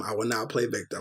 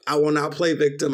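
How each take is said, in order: First: Softer, lower, said to himself; a quiet promise to himself; quiet mantra. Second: Said in the usual way. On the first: Shown as a demonstration. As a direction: repeat it under your breath like a vow. Repeats a self-reminder three times.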